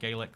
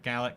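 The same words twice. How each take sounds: First: It is pronounced the Irish way. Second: It is pronounced the Scottish way. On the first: The language outside Scotland is meant. "when it's in not Scotland" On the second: The language of Scotland is meant. "when it's in Scotland"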